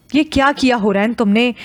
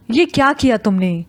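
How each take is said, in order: First: Lightly voiced annoyed mother; a touch of scolding in the question; mild reproach. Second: Softened mother's question after the outburst; gently. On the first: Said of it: "ناراضگی ظاہر کرتے ہوئے کہا". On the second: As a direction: ask it tenderly, not scolding. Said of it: "آخری جملہ فوزیہ نے نرمی کے ساتھ کہا". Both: A narrator's reading.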